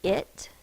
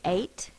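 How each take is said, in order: First: The ending has a short I vowel. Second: The ending has a long A vowel. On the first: The speaker calls it right. "We say it" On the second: The speaker calls it wrong. "we don't say eight"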